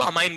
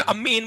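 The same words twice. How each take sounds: First: अमाइन with single m and "ain" ending; pronunciation contrast. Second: अम्मी इन with doubled m, ending "een"; pronunciation demo. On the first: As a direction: say अमाइन as a-main, one m. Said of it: "इसमें सिर्फ single एम होगा". (अमाइन में एक म, "आइन" की ध्वनि) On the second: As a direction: say अम्मी इन higher, as ammi plus in. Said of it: "कैसे प्रोनाउंस करेंगे मैं बताता हूँ". (अम्मी इन में डबल म पर ज़ोर) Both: Shown as a demonstration.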